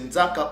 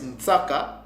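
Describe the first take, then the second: First: The word is said with a z sound. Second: The word is said with a ts sound.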